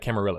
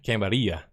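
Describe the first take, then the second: First: The word has an English pronunciation. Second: The word has a Spanish pronunciation.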